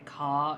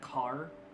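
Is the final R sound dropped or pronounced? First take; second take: dropped; pronounced. First: The final R sound is dropped. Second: The final R sound is pronounced. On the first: This is the British way of saying it. "in British English, how they say" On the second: This is the non-British way of saying it. "instead of"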